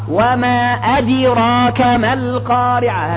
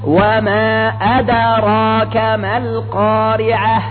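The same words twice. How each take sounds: First: The d is released with an i-like vowel. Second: The d is released with a slight neutral echo. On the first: The speaker calls it wrong. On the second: The speaker calls it right.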